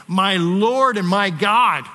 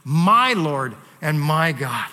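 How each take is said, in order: First: Slow and loud, leaning on "Lord"; "My Lord and my God" drawn out, "Lord" hit hard; proclaimed confession. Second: Slow, weighted "My Lord and my God" with "my" stressed; blurted confession. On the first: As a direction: declare it slowly, stress "Lord". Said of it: "hearing him say those words". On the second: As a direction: press on "my" in "my God", drawn out. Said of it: "as he blurts out". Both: Retold or imitated.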